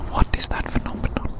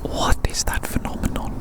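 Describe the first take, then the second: No difference in how they are said.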